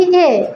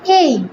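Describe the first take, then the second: First: A said as এ, one plain vowel; old pronunciation of A. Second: A said as এই, gliding into i; corrected pronunciation of A. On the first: Trainer shows teachers the habit to drop, plain এ. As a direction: say A as a short, pure "এ" without glide. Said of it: "আর কখনোই বলবো না". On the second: Trainer models the new letter name for teachers, gliding এই. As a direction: stretch A into the diphthong "এই". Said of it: "এটাকে বলবো এই". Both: Shown as a demonstration.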